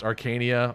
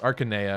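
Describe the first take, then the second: First: The name sounds like the word arcane. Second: The name sounds like the Japanese Akanea. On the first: The speaker calls it wrong. "I always felt it should be pronounced Arcania" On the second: The speaker calls it right. "because in Japanese it's Akanea"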